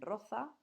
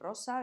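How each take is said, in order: First: The middle consonant is a th sound. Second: The middle consonant is an s sound. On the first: "dicen roza. Entonces, en vez de la S, pronuncian Z" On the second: "En vez de decir rosa"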